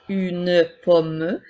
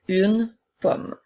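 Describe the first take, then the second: First: A vowel sound is added after the final M. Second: The word ends on the M with no vowel. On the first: The speaker calls it wrong. "les E à la fin des mots ne seront pas prononcés pour faire" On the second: The speaker calls it right. "mais bien"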